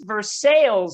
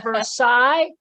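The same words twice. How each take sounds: First: Versailles said ver-SALE; American Versailles. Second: Versailles said ver-SIGH, French style. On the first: A comic explaining the Kentucky city name, Versailles said ver-SALE. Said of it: "that's pronounced Versailles". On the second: A visitor correcting the Kentucky greeter, Versailles said ver-SIGH. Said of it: "isn't it pronounced Versailles". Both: Shown as a demonstration.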